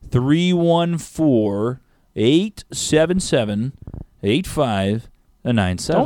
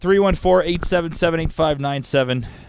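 First: The number is read at a slow pace. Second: The number is read at a fast pace.

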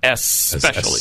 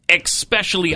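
First: The word begins with an 'es' sound. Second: The word begins with an 'ex' sound. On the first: The speaker calls it right. "It's S" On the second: The speaker calls it wrong. "I hear it all the time instead of especially"

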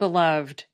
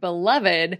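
First: The -ed ending is only a final consonant. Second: The -ed ending is a separate syllable. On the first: "If these words were pronounced like most English words ending in ed" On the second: "has the same unusual pronunciation of the suffix ed"

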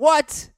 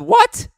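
First: The word is said at a lower pitch. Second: The word is said at a very high pitch. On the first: The speaker calls it right. "it's supposed to be like" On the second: The speaker calls it wrong. "I wasn't supposed to say it with that high of a pitch there"

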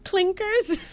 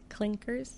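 First: The word is said loudly into the mic. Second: The word is said at normal volume.

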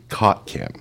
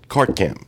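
First: Cart is said without r, like cot. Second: Cart is said with a clear r sound.

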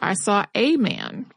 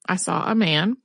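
First: The word 'a' has a long 'ay' vowel. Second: The word 'a' has a short, reduced vowel. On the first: This is the formal reading-aloud form someone demanded. "insistent that she teach them to use a long A sound" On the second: This is how it is said in everyday conversation. "with the short rather than the long sound, the way that you would in a conversation"

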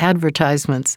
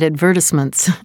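First: The word is said the American way. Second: The word is said the British way. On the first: The speaker calls it right. "I remembered I was in the United States, so I changed it" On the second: The speaker calls it wrong. "I live in England as well as in the United States"

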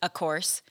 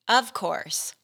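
First: The first word is reduced to a plain 'a'. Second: The first word is a full, clear 'of'. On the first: The speaker calls it wrong. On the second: The speaker calls it right.

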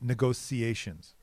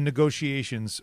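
First: The middle consonant sounds like 's'. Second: The middle consonant sounds like 'sh'. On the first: The speaker calls it wrong. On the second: The speaker calls it right.

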